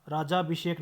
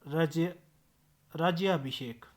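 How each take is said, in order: First: राजाभिषेक with plain 'jaa', no य; wrong pronunciation. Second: राज्याभिषेक with 'jya' shown apart first; correct pronunciation. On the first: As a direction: run राजाभिषेक together without य. (राजाभिषेक, य के बिना) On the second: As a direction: break out राज्य, then say राज्याभिषेक. (राज्याभिषेक में ज्य का साफ़ उच्चारण) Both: Shown as a demonstration. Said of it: "राजाभिषेक नहीं".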